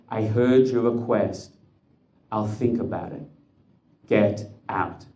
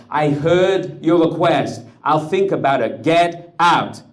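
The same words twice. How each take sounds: First: Cold slow dismissal. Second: The officer's words shouted back high and loud; screamed mockery. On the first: Acted. Officer dismissing the Rebbe's request, slow and cold. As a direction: brush him off slowly and coldly. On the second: Rebbe screaming the officer's dismissal back at him, high and loud. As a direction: hurl his own words back at him. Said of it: "pleading, screaming".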